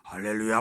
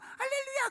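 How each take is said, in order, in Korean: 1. 목소리가 쉬고 긴장된 소리예요. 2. 목소리가 깨끗하고 맑은 소리예요. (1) "너무 막 은혜가 되는 거예요" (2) "은혜가 별로 안 돼요"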